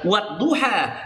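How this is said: It is said the Indonesian way, ending in 'a'.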